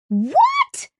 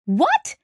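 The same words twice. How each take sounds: First: Very high, squeaked "What?"; shocked cry. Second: High, rising shocked "What?"; shocked outburst. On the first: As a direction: cry out in utter disbelief, pitch leaping up. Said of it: "Kizzy cried". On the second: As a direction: blurt it out in disbelief, pitch shooting up. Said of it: "The Wayfarer's crew exploded". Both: A narrator's reading.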